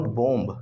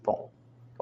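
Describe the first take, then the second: First: "bomb" with the final b sounded; wrong pronunciation. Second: "bomb" as bom, ending on m; silent final B. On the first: Teacher shows the mistake, final b pronounced. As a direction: close "bomb" on an audible b. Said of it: "It's not bomb". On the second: Teacher gives the correct word, b silent. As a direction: stop "bomb" at the m. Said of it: "it's bomb". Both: Shown as a demonstration.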